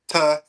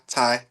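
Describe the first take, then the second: First: The vowel is an 'ah' sound. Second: The vowel is a strong 'eye' sound. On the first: The speaker calls it wrong. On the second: The speaker calls it right.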